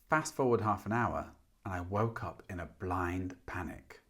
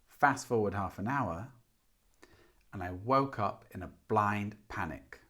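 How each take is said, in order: First: It is said fast. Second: It is said slowly.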